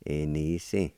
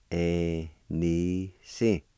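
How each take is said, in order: First: Said in the usual way. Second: "Enisi" drawn out very slowly, every vowel stretched; slow model pronunciation. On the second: Shown as a demonstration. Teacher modelling the word for grandfather on the dad's side, very slow. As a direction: stretch out each sound of "Enisi". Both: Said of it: "And it's pronounced like this".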